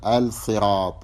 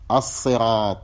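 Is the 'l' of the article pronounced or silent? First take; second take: pronounced; silent. First: The l is clearly sounded before s. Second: The l merges into the following s sound. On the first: The speaker calls it wrong. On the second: The speaker calls it right.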